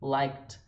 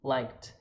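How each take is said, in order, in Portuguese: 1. Termina em um T leve, uma sílaba só. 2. Termina em um T leve, uma sílaba só.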